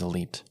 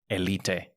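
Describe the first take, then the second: First: The word is pronounced the English way. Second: The word is pronounced in a non-English way. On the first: This is the pronunciation of the English word. The speaker calls it right. "oh my God, the word is elite" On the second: This is the childhood pronunciation copied from a neighbor. The speaker calls it wrong. "my neighbor had one and he called it an Elite. And so I called it Elite"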